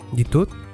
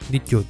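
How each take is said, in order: First: The t before i is a plain t. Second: The t before i is palatalized, like ch.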